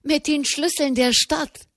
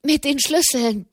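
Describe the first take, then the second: First: High, rising, eager repeat; much higher, breathless excitement; excited. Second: High, tumbling and eager; a much higher excited burst. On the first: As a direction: press the news on, thrilled. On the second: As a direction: rush it out with joy. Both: A narrator's reading. Breathless prelate reports news.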